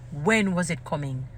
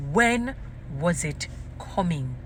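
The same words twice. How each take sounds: First: Said in the usual way. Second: "When" rising alone, pause, then slow "was it coming"; emphatic broken-up repeat. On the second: Real, not acted. Wondering about the handkerchiefs, slow and emphatic. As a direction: split off "When" and stretch the rest.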